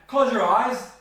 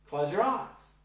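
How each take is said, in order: First: It is said as a firm command. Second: It is said as a gentle suggestion.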